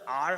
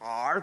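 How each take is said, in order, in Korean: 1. R은 혀를 말지 않고 평범하게 발음해요. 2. R은 혀를 과장되게 말아서 발음해요. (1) "그냥 R 하면 되지" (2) "R 꼭 이래야 돼?"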